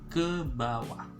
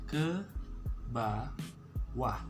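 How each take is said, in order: First: It is said quickly, as one smooth word. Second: It is said slowly, syllable by syllable.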